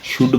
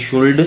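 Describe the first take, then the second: First: "should" with no L, like "shood"; "should" as it is normally spoken, "shood" without L; silent L. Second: "should" with the L sounded out; "should" as "shoold", L audible; L pronounced. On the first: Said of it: "एल silent". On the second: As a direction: say "should" as spelled, voicing the L before the D. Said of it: "है should ही है, लेकिन बोलते कैसे हैं". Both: Shown as a demonstration.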